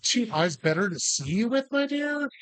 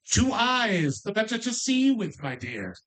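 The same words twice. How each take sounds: First: "my dear?" rising high like the wolf playing grandma; lightly voiced wolf posing as granny. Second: "Two eyes, the better to see you with, my dear" in a lightly cackling witchy voice; a hint of a wicked witch. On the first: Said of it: "supposed to be in the wolf pretending to be grandma's". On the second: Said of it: "I did kind of do it in a wicked witchy voice".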